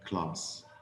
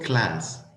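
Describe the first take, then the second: First: The vowel is long and open, British style. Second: The vowel is short and flat, American style. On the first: "but class" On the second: "It's not class"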